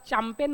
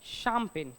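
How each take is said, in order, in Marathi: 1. या शब्दाची सुरुवात 'ch' आवाजाने होते. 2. या शब्दाची सुरुवात 'sh' आवाजाने होते. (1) "सी एच तर च होतो सर, तर त्याला चॅम्पेन म्हणायला पाहिजे" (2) "मग त्याला आपण काय म्हणतो?"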